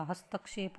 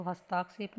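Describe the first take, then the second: First: हस्तक्षेप with short "ta"; short middle vowel in हस्तक्षेप; correct pronunciation. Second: हस्ताक्षेप with long "taa"; stretched middle vowel in हस्ताक्षेप; wrong pronunciation. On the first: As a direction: say हस्तक्षेप as has-tak-shep. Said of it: "हस्तक्षेप होता है". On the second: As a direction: say हस्ताक्षेप as has-taak-shep. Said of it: "तो हस्ताक्षेप नहीं होता". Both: Shown as a demonstration.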